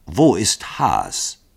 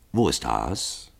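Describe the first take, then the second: First: Sehr langsam und gedehnt wiederholt; Wo ist Haas? Wort für Wort gedehnt wiederholen. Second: Monoton. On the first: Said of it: "wiederholte Dragomilow". (gedehnt nachdrücklich wiederholt) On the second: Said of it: "monotonen, gleichmäßigen Stimme". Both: Acted.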